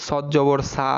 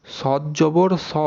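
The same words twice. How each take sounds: First: সা with an open aa vowel; সা as "saa", not rounded "saw"; mistaken aa vowel. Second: স drawn out as "saw"; স with a back, rounded vowel; heavy rounded vowel. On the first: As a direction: end সদ জবর on an open সা. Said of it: "কিন্তু সেটা আসলে ভুল". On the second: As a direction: slowly round the final স, no aa. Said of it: "সঠিক উচ্চারণটা কি দেখেন". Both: Shown as a demonstration.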